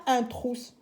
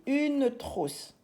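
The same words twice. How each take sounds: First: UN said before TROUSSE, as the mistake; wrong article. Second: UNE drawn out slowly before TROUSSE; stress on UNE. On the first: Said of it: "On dit pas un trousse". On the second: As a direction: stretch the correct article UNE. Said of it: "on dit une trousse". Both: Shown as a demonstration.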